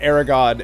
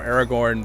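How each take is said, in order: First: The final syllable has no r sound. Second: The final syllable has a clear r sound. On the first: "I always said it Aragon" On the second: "now I say it more Aragorn because I feel like, you know, the O G R is there"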